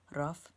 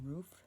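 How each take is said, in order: First: It is drawn out, with a rolled R. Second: It is said in a Western New York accent.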